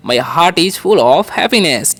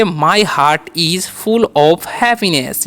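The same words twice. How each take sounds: First: "My heart is full of happiness" repeated slowly. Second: "My heart is full of happiness" stretched with stress on full; very slow model. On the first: Teacher repeating the model sentence slowly. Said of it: "ठीक है". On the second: Teacher modelling an English sentence very slowly. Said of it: "अब sentence बनाएंगे". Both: Shown as a demonstration.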